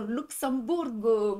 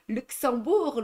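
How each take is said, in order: First: "Luxembourg" drawn out slowly with final -go; Spanish pronunciation. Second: "Luxembourg" with French u and nasal middle; French pronunciation. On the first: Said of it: "en espagnol". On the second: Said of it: "en anglais, en espagnol". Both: Shown as a demonstration.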